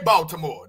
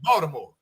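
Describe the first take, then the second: First: The middle consonant is a clear T sound. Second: The middle consonant is a D sound. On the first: This is how outsiders say the name. "people don't say Baltimore" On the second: This is how locals say the name. "The T becomes a D"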